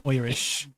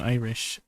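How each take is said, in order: First: "Irish" said Irish-style, as "Oirish"; mock Irish accent. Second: Said in the usual way. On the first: Shown as a demonstration. Correcting herself as a joke, mock Irish accent. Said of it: "It does kinda sound Irish". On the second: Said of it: "I mean, Irish".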